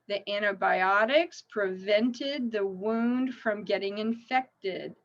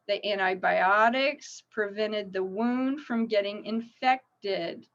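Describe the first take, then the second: No difference in how they are said.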